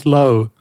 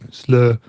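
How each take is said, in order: First: The vowel sounds like English 'slow'. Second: The vowel is a rounded German-style sound. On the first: "I always pronounced it" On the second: "if I was doing it in German, it would be"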